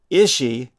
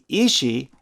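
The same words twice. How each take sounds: First: "Ishi" opening on a short i, as in "itch". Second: "Ishi" opening on a long ee, as in "each". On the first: Narrator showing the Kroebers' pronunciation, short-i "Ishi". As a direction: say "Ishi" as ISH-ee, with a short first vowel. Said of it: "was likely how the Kroebers pronounced". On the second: Narrator contrasting Pope's pronunciation, long-ee "Ishi". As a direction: say "Ishi" as EE-shee, with a long first vowel. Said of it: "which Saxon T. Pope called for". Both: Shown as a demonstration.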